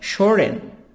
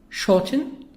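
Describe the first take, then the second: First: It is said in an American accent. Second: It is said in a British accent.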